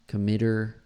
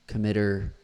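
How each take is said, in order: The two takes are said the same way.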